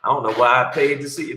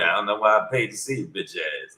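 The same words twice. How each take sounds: First: Said in the usual way. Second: Fast, softer, lightly voiced Charlie Murphy put-down; Charlie Murphy heckle. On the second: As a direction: rattle it off like a mild Charlie Murphy impression. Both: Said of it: "They turned into Charlie Murphy".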